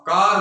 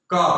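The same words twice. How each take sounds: First: कार with the final R voiced; wrong sounded R. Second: का with no R at the end, open "kaa"; silent final R. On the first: Teacher showing what not to say, कार with R sounded. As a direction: finish कार on a clear R. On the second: Teacher modelling the word car, का with silent R. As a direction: end on the long vowel in का. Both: Shown as a demonstration. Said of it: "कार नहीं बोलेंगे".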